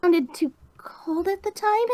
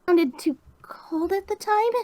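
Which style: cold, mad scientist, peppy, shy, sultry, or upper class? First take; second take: shy; shy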